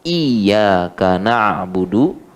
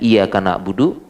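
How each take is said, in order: First: The y sound is held and doubled. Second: The y sound is short and single. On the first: It means you alone we worship. The speaker calls it right. "harus pakai tasydid" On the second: It changes the meaning to sunlight we worship. The speaker calls it wrong. "tidak pakai tasydid"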